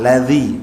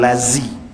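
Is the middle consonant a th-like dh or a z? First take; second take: dh; z. First: The middle consonant is a th-like dh sound. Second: The middle consonant is a buzzing z sound. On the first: The speaker calls it right. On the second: The speaker calls it wrong. "bukan lazi"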